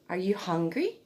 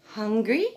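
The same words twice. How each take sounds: First: Gentle rising question to a newborn; baby talk. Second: Higher, rising repeat of the word; baby talk. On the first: Mum asking her newborn, lightly sing-song baby talk. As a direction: ask the baby sweetly. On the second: Mum repeating the word to her newborn, higher baby talk. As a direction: coo the word back up at the baby. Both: Shown as a demonstration. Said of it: "emphasize words from birth".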